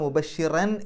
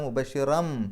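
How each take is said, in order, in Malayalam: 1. വാക്ക് n ശബ്ദത്തിൽ അവസാനിക്കുന്നു. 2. വാക്ക് m ശബ്ദത്തിൽ അവസാനിക്കുന്നു. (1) "മുബശ്ശിറൻ എന്നല്ല"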